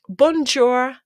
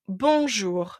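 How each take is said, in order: First: It is said with an English-style pronunciation. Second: It is said with a French pronunciation. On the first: The speaker calls it wrong. "if your children come and say" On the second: The speaker calls it right. "tell them, ... correct them"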